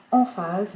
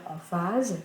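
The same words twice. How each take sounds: First: "emphase" with the first syllable punched; emphatic first syllable. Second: Said in the usual way. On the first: Shown as a demonstration. Teacher showing students the emphatic way, first syllable of "emphase" stressed. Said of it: "mais on va faire emphase". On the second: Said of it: "on va pas faire emphase".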